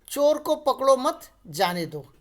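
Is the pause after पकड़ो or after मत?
after मत. There is a pause after मत.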